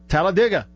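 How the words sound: It is said the way locals say it. This is how people from the town say it. The speaker calls it right. "people who are from there and actually live in this town call it Talladega"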